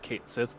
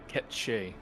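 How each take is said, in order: First: The name is said as 'Kate Sith'. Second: The name is said as 'Ketche'. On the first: This is the common pronunciation based on the spelling. The speaker calls it wrong. "everyone pronounces it Kate Sith because uh that's what it sounds like" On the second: This is the original Scottish Gaelic pronunciation. The speaker calls it right. "which is pronounced uh, Ketche"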